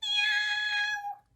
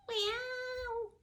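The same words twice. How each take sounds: First: Very high, loud drawn-out meow; piercing, stretched cat's meow. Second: High, softer drawn-out meow; a puppy's tentative try at a cat's meow; thin, high imitation meow; puppy copying meow. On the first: Acted. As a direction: meow like a cat greeting someone, high and loud. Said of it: "she said". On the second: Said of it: "So he said".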